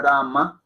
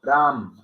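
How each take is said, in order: First: Rama with a full final a sounded; wrong Rama. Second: Ram ending cleanly on the m, no final vowel; correct Ram. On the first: Teacher shows students the wrong form, Rama with final a. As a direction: add an a after the m: Rama. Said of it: "Y no decimos Rama". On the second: Teacher corrects students, Ram ending on the m. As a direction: clip it short after the m: Ram. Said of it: "no, Ram". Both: Shown as a demonstration.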